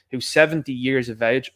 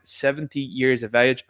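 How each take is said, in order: First: Said in the usual way. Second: "seventy years of age" slowed, each word weighted; slow, deliberate "seventy years of age"; stressed repeat. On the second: Shown as a demonstration. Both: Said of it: "I'll repeat that again".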